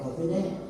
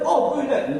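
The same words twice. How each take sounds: First: It is said softly at low volume. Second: It is said loudly at high volume. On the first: The volume fits what is needed. The speaker calls it right. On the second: The volume is more than is needed. The speaker calls it wrong. "Aduh ribut aja"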